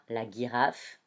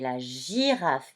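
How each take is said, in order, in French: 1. Le g se prononce comme un g dur. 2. Le g se prononce comme un son j doux. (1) "je ne lis pas la girafe" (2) "mais la girafe, puisqu'il y a le I juste après"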